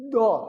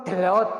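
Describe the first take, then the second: First: "Dot" as one heavy, loud, high syllable; correct letter reading. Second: "Delot" as two loud syllables; wrong reading. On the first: Teacher modelling the letter, one heavy loud syllable "Dot". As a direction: press into the d of "Dot", then burst it out. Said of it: "Bukan dilut". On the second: Teacher quizzing learners with a misreading, loud two-syllable "Delot". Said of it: "bukan delot ini". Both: Shown as a demonstration.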